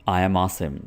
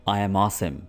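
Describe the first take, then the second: The two takes are said the same way.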